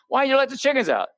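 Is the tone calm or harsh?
harsh. It is said in a sharp, harsh tone. It is an accusation that provokes a defensive reply. The speaker calls it wrong. "if she wouldn't have talked to me like that"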